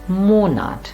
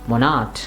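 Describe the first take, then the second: First: The stress is on the first syllable. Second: The stress is on the second syllable. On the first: The speaker calls it right. "It is Monat" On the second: The speaker calls it wrong. "Somehow instinctively we say Monat"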